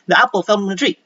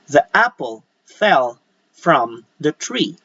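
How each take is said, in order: First: It is said quickly, with sounds run together. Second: It is said slowly, with each sound clear. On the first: The speaker calls it wrong. "instead of saying" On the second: The speaker calls it right. "you should say"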